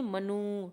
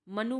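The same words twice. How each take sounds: First: मनु stretched to manoo; मनु said as "ma-nooo"; long final U. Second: Said in the usual way. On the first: Shown as a demonstration. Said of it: "बड़ा ऊ". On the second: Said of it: "छोटा ऊ लिखते हैं".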